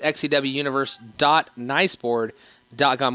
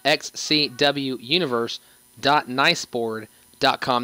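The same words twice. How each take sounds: First: It is said at normal speed. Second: It is said more slowly.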